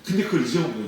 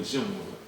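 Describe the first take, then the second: First: Said in the usual way. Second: 잊어먹은 repeated softly and lower; quiet echo of 잊어먹은 거예요. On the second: Shown as a demonstration. (조용히 되뇌는 잊어먹은)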